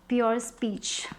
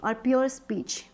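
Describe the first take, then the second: First: Whispered. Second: Said in the usual way. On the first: Real, not acted. Tarot reader murmurs the card name to herself, whispered. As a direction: breathe the card name under your breath.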